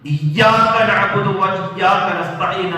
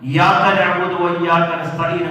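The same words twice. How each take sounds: First: The y sound is held long and doubled. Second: The y sound is short and single. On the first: You alone we worship. The speaker calls it right. "ശബ്ദ കൊടുത്ത് യാ ഉച്ചരിക്കേണ്ടതിന്" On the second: We worship the light of the sun. The speaker calls it wrong. "പകരം ... എന്ന് ഓതിക്കഴിഞ്ഞാൽ നമ്മൾ ഇസ്ലാമിൽ നിന്ന് പുറത്തു വരെ പോകാൻ സാധ്യതയുണ്ട്"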